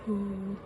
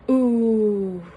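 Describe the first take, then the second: First: The voice is breathy and airy. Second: The voice is clear and fully voiced. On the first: "they kind of had a breathy voice, aphonic" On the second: "whenever we do our new voice"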